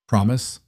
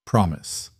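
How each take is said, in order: First: "Promise" rising at the end; hopeful question. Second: Firm reassurance. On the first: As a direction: ask it hoping for a yes, rising. Child asks for reassurance. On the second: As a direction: settle it gently, falling. Father reassures daughter. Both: Acted.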